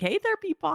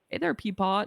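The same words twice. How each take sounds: First: The greeting sounds polite and more respectful. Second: The greeting sounds offhand and less respectful. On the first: The speaker calls it right. "respectfuler than that" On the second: The speaker calls it wrong. "Not like that"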